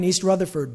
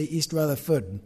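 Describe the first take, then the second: First: Said in the usual way. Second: North Jersey "East Rutherford", R's dropped to "Ruthafud"; North Jersey accent. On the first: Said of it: "but we used to say". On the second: Shown as a demonstration. Preacher recalling his hometown speech, North Jersey accent. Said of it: "we used to say East Rutherford".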